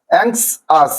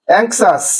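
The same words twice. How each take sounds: First: anxious split into two syllables; a short gap inside anxious, অ্যাংশ then আস. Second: Said in the usual way. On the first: Shown as a demonstration. Teacher showing two syllables, anxious broken in two. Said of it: "এভাবে". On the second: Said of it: "দুইটি সিলেবেলে ভাঙা হয়েছে".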